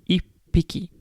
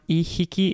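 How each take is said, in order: First: The middle consonant is a doubled p sound. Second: The middle consonant is a soft h sound. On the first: The speaker calls it right. "So there's a p sound" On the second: The speaker calls it wrong. "It's not ihiki"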